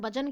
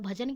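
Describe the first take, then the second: First: The first consonant is said without aspiration. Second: The first consonant is said with aspiration. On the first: This is how a Tamil speaker says it. "Tamil में भजन कहता है" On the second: This is how Hindi speakers say it. "हम लोग भजन कहते हैं"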